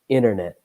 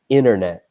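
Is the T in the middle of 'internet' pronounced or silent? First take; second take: silent; silent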